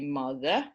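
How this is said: Pitch starts low and rises on the second syllable. "low, high"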